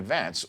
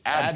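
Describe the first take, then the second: First: The stress is on the second syllable. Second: The stress is on the first syllable.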